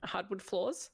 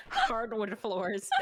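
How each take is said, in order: First: "Hardwood" sans r, hɑdwʊd, "floors" as flɔz; non-rhotic hardwood. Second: "Hardwood" with a strong American r, slow, laughing. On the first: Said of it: "Say, uh, hardwood?". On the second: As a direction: roll out "Hardwood floors" with hard r's. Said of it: "it's spelled hardwood". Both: Shown as a demonstration.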